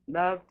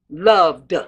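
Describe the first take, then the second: First: The final D is weak and barely released. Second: The final D is released strongly, almost a syllable. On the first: The speaker calls it wrong. "without punching that D" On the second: The speaker calls it right. "that D is almost taking on another syllable"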